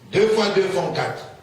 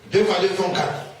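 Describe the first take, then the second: The two takes are said the same way.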